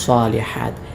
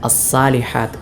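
First: The s sound is heavy and emphatic. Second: The s sound is light and plain. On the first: The speaker calls it right. "സ്വാ സ്വാദായി തന്നെ ഉച്ചരിക്കണം" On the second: The speaker calls it wrong. "സീനായി അസ്സാലിഹാത്ത് എന്നല്ല ഓതേണ്ടത്"

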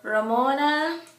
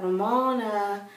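First: The name is said in a cheerful tone. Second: The name is said in a gloomy tone.

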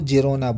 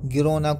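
First: The name begins with a soft J sound. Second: The name begins with a hard G sound. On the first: "यहाँ के लोग है ना गिरोना को जिरोना बोलते हैं" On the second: "गिरोना को"

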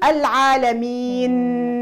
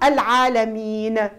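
First: The final n sound is drawn out and nasal. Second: The final n sound is rushed and clipped short. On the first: "طولتها طننتها بلغت عطيتها أكثر من حقها" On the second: "زربت ياسر قلقلتها"

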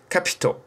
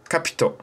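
Both takes have the same delivery.

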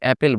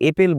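First: The first vowel is an open 'a' sound. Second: The first vowel is an 'e' sound. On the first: The speaker calls it right. "আমাদের অ্যাপেল বলি" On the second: The speaker calls it wrong. "সেখানে আমরা এপেল বলি না"

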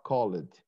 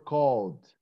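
First: The -ed ending is said as an extra syllable. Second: The -ed ending is not said as an extra syllable. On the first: The speaker calls it wrong. "not called" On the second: The speaker calls it right. "They were called"

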